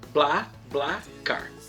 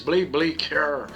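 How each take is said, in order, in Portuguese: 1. O nome recebe uma pronúncia em português brasileiro. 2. O nome recebe uma pronúncia estrangeira, não brasileira. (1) "Vou colocar portuguesado mesmo" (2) "em outros países, em outras línguas, se diz BlaBlaCar"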